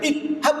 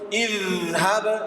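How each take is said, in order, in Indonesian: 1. Konsonan tengah itu bunyi yang terhenti. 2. Konsonan tengah itu bunyi yang mengalir. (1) "itu namanya menghilangkan sifat rohawah" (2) "Izhab, izhab, bukan idhab"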